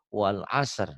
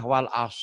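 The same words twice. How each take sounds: First: Wal asr slowly, with the final R sounded; careful wal asr, both closing consonants released; correct stop demonstration. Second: Wal as cut off with the final R dropped; wrong stop demonstration. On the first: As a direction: let the R be heard after the S in wal asr. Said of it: "Harusnya wal asr". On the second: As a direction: say wal as ending on a bare S. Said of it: "orang sering salah". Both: Shown as a demonstration.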